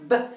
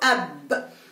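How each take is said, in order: First: The b is said alone with no vowel. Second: A short a vowel comes before the b. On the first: "ممكن نقولها له ب" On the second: "او الاصح ان احنا نقوله اب"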